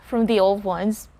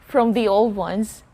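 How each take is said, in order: No difference in how they are said.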